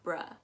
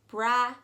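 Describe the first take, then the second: First: The vowel is a short 'uh' sound. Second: The vowel is an open 'ah' sound. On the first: The speaker calls it wrong. "and not bruh" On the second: The speaker calls it right. "definitely pronounce it as bra"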